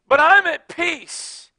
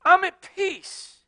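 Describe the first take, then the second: First: Calm and at peace. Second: Slow, high "I'm at peace", falling; calm and at peace. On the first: Pastor answering his critics again, slow and calm. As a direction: say it settled. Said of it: "repeated slow". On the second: Pastor answering his critics, slow and calm. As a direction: settle into it. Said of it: "slow calm assertion". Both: Real, not acted.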